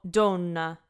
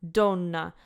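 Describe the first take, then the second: Both takes have the same delivery.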